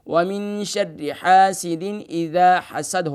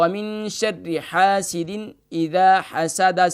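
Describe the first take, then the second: First: The final word ends on a bare 'd' consonant. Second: The final word ends with a short 'a' vowel. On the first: "हम यहाँ पर दाल को साकिन करेंगे" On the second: "दाल के ऊपर ज़बर यानी फ़तह की अलामत मौजूद है"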